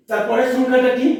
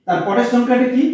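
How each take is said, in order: Both takes have the same delivery.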